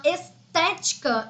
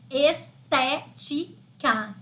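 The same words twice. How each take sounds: First: Said in the usual way. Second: "estética" split into separate syllables with short pauses. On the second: Shown as a demonstration. Teacher checking the stressed syllable for students, "estética" broken into syllables. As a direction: sound out "estética" one slow syllable at a time. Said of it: "é a antepenúltima sílaba tônica".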